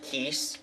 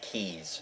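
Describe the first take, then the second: First: The name ends with a hissing s sound. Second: The name ends with a buzzing z sound. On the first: The speaker calls it right. "it's pronounced Keese" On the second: The speaker calls it wrong. "mispronounces it as Keys"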